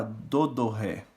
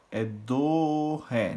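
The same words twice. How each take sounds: First: "do, do, ré" with the note restarted on the second "do"; separated syllables. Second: "do" held straight into "ré" without a restart; joined syllables. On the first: Music teacher showing students the wrong way, "do" sung twice. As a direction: split "do" into two attacks before "ré". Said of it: "eu não posso falar". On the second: Music teacher showing students the right way, "do" held into "ré". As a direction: sustain "do" and glide on to "ré". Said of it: "É tudo junto isso aqui". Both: Shown as a demonstration.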